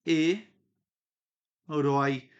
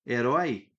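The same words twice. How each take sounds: First: "e", a clear pause, then "rói"; syllable by syllable. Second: Said in the usual way. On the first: Shown as a demonstration. Teacher showing the separated syllables, with a pause between. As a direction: split "herói" into two detached syllables. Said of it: "quando eu separei aqui". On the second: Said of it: "a sílaba de".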